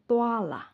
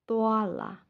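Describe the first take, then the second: No difference in how they are said.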